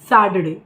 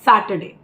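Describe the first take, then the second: First: It is said in an American accent. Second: It is said in a British accent.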